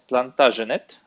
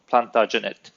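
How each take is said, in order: First: The name is pronounced with French-style sounds. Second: The name is pronounced with English-style sounds. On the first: "more from the French" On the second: "from the English"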